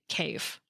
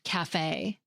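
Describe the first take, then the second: First: It ends without a raised A vowel sound. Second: It ends with a raised A vowel sound. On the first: The speaker calls it wrong. "we might be tempted to pronounce it cafe" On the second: The speaker calls it right. "that raised A sound at the end of café"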